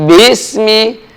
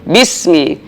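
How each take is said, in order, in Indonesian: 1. Vokal pertama dipanjangkan. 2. Vokal pertama pendek.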